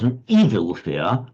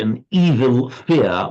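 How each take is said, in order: First: The stress falls mainly on the first word. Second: Both words carry equal stress. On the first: A fear of evil things. "would mean a fear of of evil" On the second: A fear that is itself evil. "with equal stress on both would mean adjective noun"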